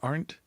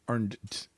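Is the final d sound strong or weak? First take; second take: weak; strong. First: The final d is light and barely sounded. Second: The final d is sounded clearly and strongly.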